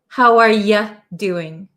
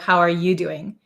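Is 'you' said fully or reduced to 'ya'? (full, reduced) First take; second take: reduced; full. First: The word 'you' is reduced to 'ya'. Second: The word 'you' is said in full. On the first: "We often shorten you to ya" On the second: "Instead of"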